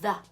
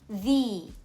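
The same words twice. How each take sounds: First: The vowel is a short, weak schwa sound. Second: The vowel is a long e sound. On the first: A consonant sound follows the word. "it is pronounced with a schwa sound" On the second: A vowel sound follows the word. "it is pronounced with a long e sound"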